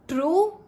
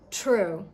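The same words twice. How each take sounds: First: The T sound is hard, without a puff of air. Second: The T sound is soft, with a puff of air. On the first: The speaker calls it wrong. "not true" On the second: The speaker calls it right. "So it's very soft"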